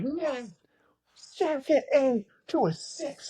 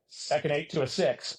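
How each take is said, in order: First: High, breathless whisper, slow on the numbers; whispered tip. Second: Said in the usual way. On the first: Retold or imitated. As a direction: hiss the answer up to the stage. Teammates mouthing the number from crowd.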